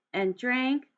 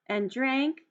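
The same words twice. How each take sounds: The two takes are said the same way.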